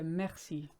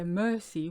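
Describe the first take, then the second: First: The first vowel is an open E. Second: The first vowel is not an open E. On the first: The speaker calls it right. "the E always sounds like an E" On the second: The speaker calls it wrong. "we don't say mercy"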